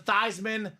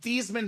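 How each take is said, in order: First: The name rhymes with Heisman. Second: The name does not rhyme with Heisman. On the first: This is the changed pronunciation chosen for publicity. "to Theismann so you can be the Heisman Trophy" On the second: This is the family's original pronunciation. "let's change your name from Thiesman"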